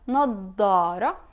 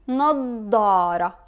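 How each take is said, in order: First: It is said in Levantine style with a heavy d. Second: The same.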